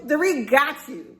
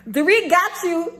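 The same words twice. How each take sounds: First: Said in the usual way. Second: "Dorit" lifted and punched; stress on Dorit. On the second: Shown as a demonstration. Taunting Kyle, punching "Dorit". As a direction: hit "Dorit" hard in "Dorit got you".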